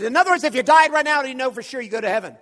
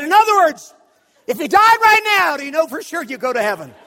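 First: Fast, loud, high question; brusque challenge. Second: Very loud, high shouted demand; hammed-up interrogation at full volume; aggressive challenge. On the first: Retold or imitated. Preacher hurries through his question hoping for a no, brusque and loud. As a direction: rattle it off forcefully in one breath. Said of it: "I said this just like this". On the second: Preacher corners stranger about heaven, aggressive shouted question. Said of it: "I pointed it like it was an Uzi".

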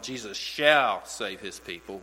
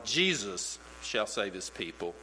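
First: "shall" punched, "Jesus" light before it; stress on shall. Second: "Jesus" hit hardest, the rest falling away; stress on Jesus. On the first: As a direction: push the word "shall" hard, keep "Jesus" light. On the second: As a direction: lean on "Jesus" and let "shall save his people" trail off. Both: Shown as a demonstration. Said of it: "If you put the emphasis on".

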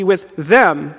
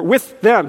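First: "them" takes the weight instead of "with"; stress on THEM. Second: "with" punched, "them" let fall; stress on WITH. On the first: Preacher slips while rereading for emphasis, stress on "them". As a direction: land on "them", passing over "with". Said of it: "emphasis on the wrong syllable". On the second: Preacher correcting his misplaced emphasis, stress on "with". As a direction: hit "with" as the key word. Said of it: "sorry, emphasis on the wrong syllable". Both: Shown as a demonstration.

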